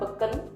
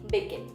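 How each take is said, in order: First: The vowels sound like a plain e. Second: The vowels fall between i and e. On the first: The speaker calls it wrong. "bukan beken" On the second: The speaker calls it right. "tetapi bikin"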